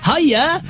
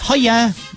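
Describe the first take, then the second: First: It is said in an imitated, put-on voice. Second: It is said in the speaker's natural voice.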